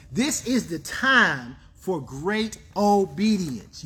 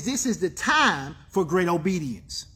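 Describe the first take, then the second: First: "great obedience" drawn out word by word; slow right down, spacing out "This is the time for great obedience"; slow emphasis. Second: Said in the usual way. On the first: Real, not acted. Preacher driving home the key line, slow and emphatic.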